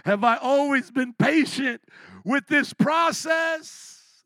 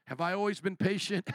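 First: Higher and louder, leaning hard on "always"; loud challenge. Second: Said in the usual way. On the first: Real, not acted. Preacher confessing impatience to the congregation, loud and rising. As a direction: throw the question out, confessing loudly. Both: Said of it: "I can't even say it without laughing".

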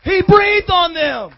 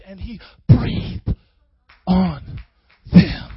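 First: Higher, slow proclamation; raised emphatic repeat. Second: Each word stretched and set apart; low, slow, with pauses between words; slow hushed emphasis. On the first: Preacher driving home the breath on disciples, high drawn-out proclamation. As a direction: ring it out slowly to the room. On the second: Preacher picturing Jesus breathing on disciples, slow and low. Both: Real, not acted.

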